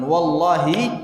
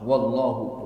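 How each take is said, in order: First: The word ends with an 'i' vowel. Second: The word ends with a 'u' vowel. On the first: It is an oath. "sumpah dia" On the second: It is not an oath. "Wallahu bukan sumpah"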